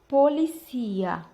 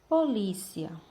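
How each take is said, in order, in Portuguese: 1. A sílaba tônica é a penúltima. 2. A sílaba tônica não é a penúltima. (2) "Português"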